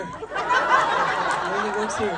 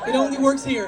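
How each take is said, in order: First: Drawn out, lower, with a laugh; slowed-down mock emphasis; slow low repeat. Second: Said in the usual way. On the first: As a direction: stretch it out slowly, dropping low.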